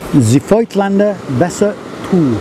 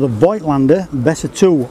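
First: It is said in a put-on German accent. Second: It is said in the speaker's Australian accent.

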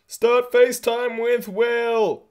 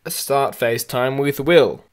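First: It is said in a silly put-on voice. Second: It is said in a normal, natural voice. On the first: The speaker calls it right. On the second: The speaker calls it wrong.

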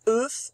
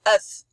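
First: The vowel is said as a closed sound. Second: The vowel is said as an open sound. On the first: The speaker calls it wrong. "On dit pas œuf" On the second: The speaker calls it right. "C'est un E ouvert"

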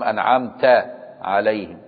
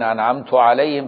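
First: The verb ends with an 'a' vowel. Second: The verb ends with a 'u' vowel. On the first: The speaker is addressing God. The speaker calls it right. "فلا بد يفتح" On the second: The speaker is talking about himself. The speaker calls it wrong. "أنت بتتكلم على نفسك"

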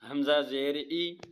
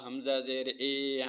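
First: The final vowel is short and a clear i. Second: The final vowel is stretched long and e-like. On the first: The speaker calls it right. "तो इसको हम नॉर्मल पढ़ेंगे" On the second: The speaker calls it wrong. "इतना लंबा करना है कि मजहूल बन जाए... ये गलत है"

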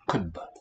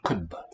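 First: The vowel is centralized, close to a schwa. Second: The vowel is centralized, close to a schwa.

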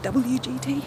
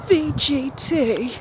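First: The first letter is said as 'double-u'. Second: The first letter is said as 'vee'. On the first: "it's actually WGT. But that sounds weird" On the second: "I say VGT because I say the V like the German W"

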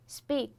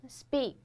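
Both takes have the same delivery.

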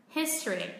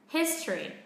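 Both takes have the same delivery.

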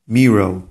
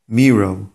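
The two takes are said the same way.

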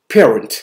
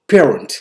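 The two takes are said the same way.

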